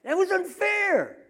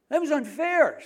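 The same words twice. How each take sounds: First: Much higher, louder, slow whining wail; drawn-out whine. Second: Higher, louder whining protest; whiny complaint. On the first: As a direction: stretch the whine out, indignant. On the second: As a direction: whine it like a wronged wife. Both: Retold or imitated. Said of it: "says James's wife".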